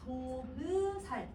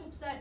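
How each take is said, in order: First: A short vowel follows the b before s. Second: No vowel follows the b before s. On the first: This is how the word was read in the older language. "조브살 이렇게 읽지 않았을까?" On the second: This is how the word is read in the modern language. "현대국어에서는 햅쌀 좁쌀"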